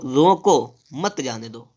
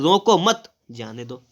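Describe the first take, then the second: First: Slow रोको, pause, then मत जाने दो; comma after रोको. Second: Slow रोको मत, pause, then जाने दो; comma after मत. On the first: Teacher contrasts two readings, slow with pause after रोको. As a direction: stop after रोको, keep मत जाने दो together. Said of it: "इसमें देखो लिखा है". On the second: Teacher shows the opposite meaning, slow with pause after मत. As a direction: keep रोको मत together, stop before जाने दो. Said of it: "बिल्कुल विपरीत है ना". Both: Shown as a demonstration.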